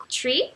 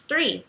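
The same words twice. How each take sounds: First: Slow "tree" with a plain T before R; "tree" starting with the tongue inside the mouth; crisp T opening on "tree". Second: "three" with TH, not T; TH-R, tongue between teeth. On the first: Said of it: "a sua língua vai ficar dentro da boca". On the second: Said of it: "a língua fica entre os dentes". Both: Shown as a demonstration.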